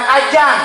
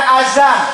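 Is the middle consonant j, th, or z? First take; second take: j; z. First: The middle consonant is a j sound. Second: The middle consonant is a z sound. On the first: "bukan ajan" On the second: "Bukan azan"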